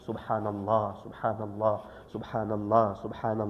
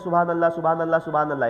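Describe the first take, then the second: First: It is said slowly, with loving reverence. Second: It is rattled off quickly and mechanically. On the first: The speaker calls it right. "अदब के दायरे में" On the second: The speaker calls it wrong. "ऐसे नहीं"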